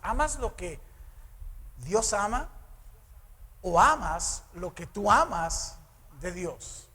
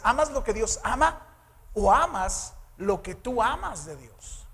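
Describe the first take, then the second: First: The sentence is spoken more slowly. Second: The sentence is spoken at a normal pace.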